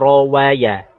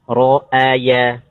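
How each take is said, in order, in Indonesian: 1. Di tengah ada bunyi w. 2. Di tengah ada hamzah. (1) "Jangan sampai dibaca rawaya" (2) "Misal ro'aya"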